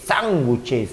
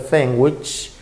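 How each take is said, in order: First: It is said with a Spanish pronunciation. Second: It is said with an English pronunciation. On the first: This is how the word is used in everyday Spanish. "decimos sándwich" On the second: This is the original word from the English language. "se pronuncia sandwich"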